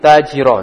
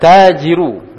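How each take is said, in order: First: The word ends in an a vowel. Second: The word ends in an u vowel. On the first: The speaker calls it wrong. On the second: The speaker calls it right.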